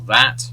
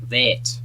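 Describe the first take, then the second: First: The vowel is an open British 'ah' sound. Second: The vowel is a closer Australian 'eh' sound. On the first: "So in British English, it's just simply ah, like cat or that" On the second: "slightly different in the Australian accent"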